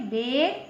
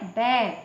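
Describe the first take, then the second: First: बेर with the narrower ए vowel; छोटा ए. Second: बैर with a big, open ऐ vowel; बड़ा ऐ. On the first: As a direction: say बेर with ए, not open ऐ. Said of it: "इसमें एक मात्रा निकली है". (बेर में छोटी ए की आवाज़) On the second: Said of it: "ऐ है तो इसकी आवाज़ बड़ी होती है". (बैर में मुंह खोलकर ऐ) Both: Shown as a demonstration.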